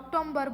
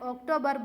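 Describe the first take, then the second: First: An extra m sound comes before the b. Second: No m sound comes before the b. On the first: The speaker calls it wrong. "ભૂલ કરે છે, ઓક્ટોમ્બર બોલે છે" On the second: The speaker calls it right. "ઓક્ટોબર બોલાશે"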